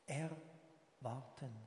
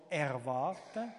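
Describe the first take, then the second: First: "Erwarten" drawn out slowly, pausing after "Er"; split-word emphasis. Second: Said in the usual way. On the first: Real, not acted. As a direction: say "Erwarten" softer and very slowly, as Er ... warten. Preacher repeats the key word slowly.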